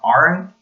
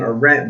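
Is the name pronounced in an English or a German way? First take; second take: German; English. First: The name is said with a German pronunciation. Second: The name is said with an English pronunciation. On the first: The speaker calls it right. "actually it's supposed to be said more Arendt ... that's the German pronunciation" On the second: The speaker calls it wrong. "I pronounce her name"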